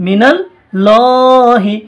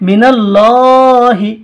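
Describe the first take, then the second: The two takes are said the same way.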